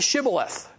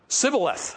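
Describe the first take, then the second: First: The word begins with an sh sound. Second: The word begins with a plain s sound. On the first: The speaker is from Gilead. The speaker calls it right. "So say Shibboleth" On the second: The speaker is an Ephraimite. The speaker calls it wrong. "They couldn't pronounce the SH"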